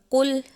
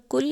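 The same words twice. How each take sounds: First: Full back-of-throat "q" in कुल; heavy qaf. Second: कुल with a light "k"; plain thin "k" in कुल; thin kaf. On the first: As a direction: say कुल as Arabic "qul". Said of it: "दो नुक्तों वाले कुल". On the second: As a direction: say कुल as "kul", front k. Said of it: "डंडी वाले काफ". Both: Shown as a demonstration.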